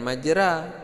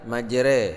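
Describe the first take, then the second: First: The final vowel is an open 'a' sound. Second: The final vowel is tilted toward an 'e' sound. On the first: The speaker calls it wrong. "bukan majra" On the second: The speaker calls it right. "tapi majre"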